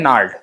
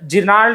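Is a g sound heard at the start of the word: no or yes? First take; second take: no; yes. First: The word begins with an n sound. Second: The word begins with a sounded g. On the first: The speaker calls it right. "इसको बोलेंगे नार्ड" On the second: The speaker calls it wrong. "जिनाल्ड नहीं"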